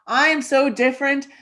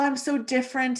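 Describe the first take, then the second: First: It sounds proud and positive. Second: It sounds frustrated and negative. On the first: Being different is a strength. The speaker calls it right. "And this is what is great about me" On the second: Being different is a burden. The speaker calls it wrong. "I don't feel that you said it with a positive energy. You said, oh, well"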